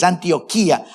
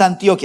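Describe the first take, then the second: First: Antioquía stressed on the í; í held as its own stressed syllable in Antioquía; corrected pronunciation. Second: Antioquia stressed on the o; pronunciation being rejected. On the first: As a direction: say Antioquía as an-tio-KEE-a. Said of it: "es Antioquía". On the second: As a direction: say Antioquia as an-TIO-kya. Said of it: "pero no es Antioquia". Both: Shown as a demonstration.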